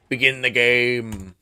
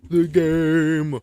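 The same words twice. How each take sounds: First: Slow, loud, dramatic command; booming command. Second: Loud dramatic repeat; loud echo. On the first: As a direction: boom it out like a herald. Gamer booming at the game. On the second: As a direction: call it out grandly. Echoing his own command. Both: Pretend.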